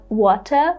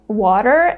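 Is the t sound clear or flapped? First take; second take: clear; flapped. First: The t is a clear, crisp t sound. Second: The t is a quick flap, like a soft d. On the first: The speaker calls it wrong. "and not water" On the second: The speaker calls it right. "Americans pronounce the word water as water"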